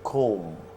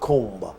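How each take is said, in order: First: The word ends in m with no b. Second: The word ends with a b sound. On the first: The speaker calls it right. "you do not pronounce the last B. So you say comb" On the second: The speaker calls it wrong. "not comb. That's wrong"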